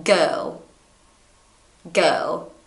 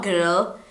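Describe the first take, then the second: First: Put-on Girl said as "gou", with no R at all; girl without R. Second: Put-on girl said with a heavy American R, as the wrong take; girl with a strong R, the version to avoid. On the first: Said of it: "you remove the R and you say it like this". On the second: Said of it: "It's not girl". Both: Shown as a demonstration.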